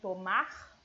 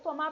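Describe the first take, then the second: First: The final r sound is clearly pronounced. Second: The final r sound is left off. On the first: The speaker calls it right. "a gente tem que pronunciar esse R" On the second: The speaker calls it wrong. "A gente, né, tirou o R"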